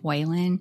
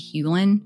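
First: The name begins with a 'way' sound. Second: The name begins with a 'hyoo' sound. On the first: The speaker calls it wrong. "I completely mispronounced his name. I said Whalen" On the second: The speaker calls it right. "but it's actually Hewlin"

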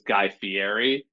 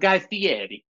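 First: The name is said plainly, without an accent. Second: The name is said with an accent put on it. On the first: He was not yet established. "early when he was famous, he was Guy Fieri" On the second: He was established. "He like started to like put the accent on it"

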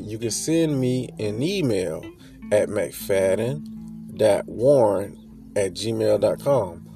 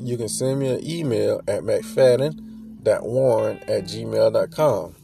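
First: It is said more slowly. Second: It is said at normal speed.

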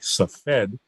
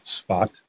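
First: The name is given its English pronunciation. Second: The name is given its Hebrew pronunciation. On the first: "that in English looks like Safed" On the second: "you'll hear me pronouncing it in the Hebrew way"

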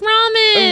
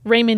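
First: The first syllable sounds like 'rah'. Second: The first syllable sounds like 'ray'. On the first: This is how everyone else says it. The speaker calls it right. "this whole time it was ramen" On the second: This is a family's own way of saying it. The speaker calls it wrong. "I'm going to say it differently than everyone else in the world says"

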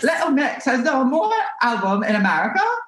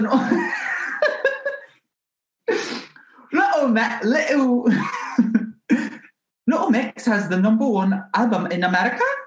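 First: It is said in a high-pitched voice. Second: It is said in a mumbled, hard-to-understand accent. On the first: "she's kind of talks like up here" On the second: "Jade is like completely incomprehensible"

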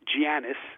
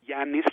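First: The name does not begin with a Y sound. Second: The name begins with a Y sound. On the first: The speaker calls it wrong. "It's not Giannis" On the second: The speaker calls it right. "like with a Y sound"

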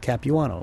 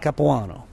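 First: The name is said with English pronunciation. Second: The name is said with Italian pronunciation. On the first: "most people anglicize most things" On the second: "People who speak Italian would say my name"

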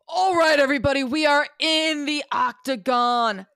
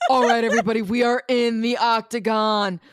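First: The voice is a strained, forced put-on voice. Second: The voice is a relaxed, easier put-on voice. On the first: The speaker calls it wrong. "This hurts my voice so much" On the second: The speaker calls it right. "Try to do an easier voice"

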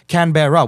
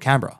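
First: The name is said fully, following the spelling. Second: The name is said with its ending squashed together. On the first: "Like it should be spelled, it's two R's" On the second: "We just make it one syllable"

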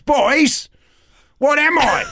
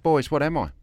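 First: It is said very loudly. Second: It is said at normal volume.

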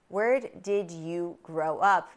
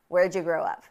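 First: Each word is said fully and separately. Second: 'Did you' merges into 'ja' after 'where'.

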